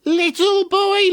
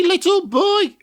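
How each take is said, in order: First: Slow, high, far witch croon. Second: High witch call again, falling. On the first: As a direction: coax him like an old witch. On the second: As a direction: croon it like a wheedling witch. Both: Acted. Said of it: "every day she said".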